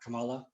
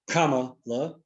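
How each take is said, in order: First: The first syllable does not sound like comma. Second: The first syllable sounds like the word comma. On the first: The speaker calls it wrong. "not Kamala" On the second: The speaker calls it right. "to pronounce it, Kama, like uh, the Kama"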